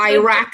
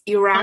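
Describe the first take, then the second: First: It is said with an American pronunciation. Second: It is said with a non-American pronunciation. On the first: The speaker calls it wrong. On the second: The speaker calls it right.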